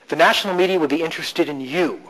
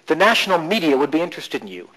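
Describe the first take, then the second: First: The stress is on you. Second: The stress is on media.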